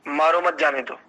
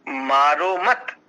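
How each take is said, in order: First: "मारो मत जाने दो" run together in one falling phrase; unbroken "मारो मत जाने दो", ambiguous in sense; no pause. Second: "मारो मत" drawn out slowly, rising on मत before a break; slow, separated "मारो मत", held apart from what follows; pause after मत. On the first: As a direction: say "मारो मत जाने दो" straight through, without a break. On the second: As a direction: stretch "मारो मत" and stop after मत. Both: Shown as a demonstration. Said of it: "एक छोटा सा यहां पर विराम दे दिया".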